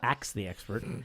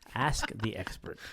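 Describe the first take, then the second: First: The first word sounds like 'aks'. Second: The first word sounds like 'ask'. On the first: The speaker calls it wrong. "not Axe the Expert" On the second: The speaker calls it right.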